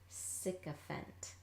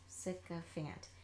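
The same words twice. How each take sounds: First: The last syllable has a reduced 'uh' vowel. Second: The last syllable has a full 'a' vowel. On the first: The speaker calls it right. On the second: The speaker calls it wrong.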